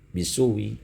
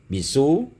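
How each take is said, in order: First: The word ends with a faint, brief vowel. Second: The word ends with no vowel after it. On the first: "kedua-dua wajah itu dibaca dengan sukun dan rum" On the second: "kedua-dua wajah itu dibaca dengan sukun dan rum"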